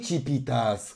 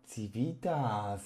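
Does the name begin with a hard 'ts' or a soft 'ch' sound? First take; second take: soft; hard. First: The name begins with a soft 'ch' sound. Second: The name begins with a hard 'ts' sound. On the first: The speaker calls it wrong. "w moim nicku jest C i a nie ci" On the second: The speaker calls it right. "Civitas, a nie Civitas"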